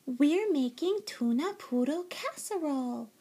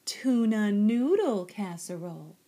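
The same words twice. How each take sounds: First: High, lilting sister's croon; crooning little sister. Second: Loud, corrective stress on "noodle"; correcting. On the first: Little sister announces supper, crooning. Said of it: "crooned his sister Jilly Boo Jones". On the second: Mama corrects her daughter's "poodle", stressing "noodle". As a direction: lean hard on "noodle" to fix the mistake. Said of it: "corrected Mama". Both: A narrator's reading.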